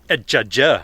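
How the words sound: It is said the French way, dropping the H.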